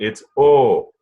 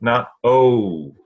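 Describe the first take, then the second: First: The vowel is one steady pure sound. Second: The vowel glides from one sound to another. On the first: The speaker calls it right. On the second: The speaker calls it wrong.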